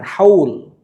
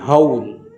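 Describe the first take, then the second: First: It starts with a plain, light h sound. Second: It starts with a deep, throaty h sound. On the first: The speaker calls it wrong. "Bukan haul" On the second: The speaker calls it right. "tapi haul"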